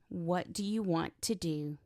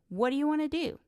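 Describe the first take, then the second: First: Each word is said fully and separately. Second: The words are run together and reduced. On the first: "The subtitle said" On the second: "what he heard was"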